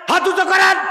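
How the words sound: It is shouted angrily, like a scolding.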